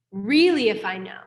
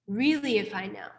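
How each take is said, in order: First: "really" punched louder, the rest plain; stressed really. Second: Said in the usual way. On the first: Shown as a demonstration. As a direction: hit "really" hard, then let it go. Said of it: "repeats it more quietly". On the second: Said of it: "louder take just before".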